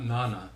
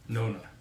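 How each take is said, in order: First: The first vowel is not a long O. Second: The first vowel is a long O. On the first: The speaker calls it wrong. "not Nana" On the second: The speaker calls it right. "it is a long O for Nona"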